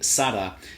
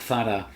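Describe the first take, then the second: First: It begins with an s sound, Latin American style. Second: It begins with a th sound, Castilian style.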